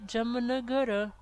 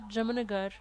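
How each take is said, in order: First: The name ends with a short final vowel. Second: The name ends on a consonant, without a vowel. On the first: This is the full form of the name. "elle s'appelle en réalité Jamnagara" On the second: This is how it is said in practice. "on prononce ça Jamnagar"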